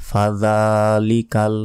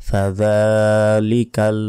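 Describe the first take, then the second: The two takes are said the same way.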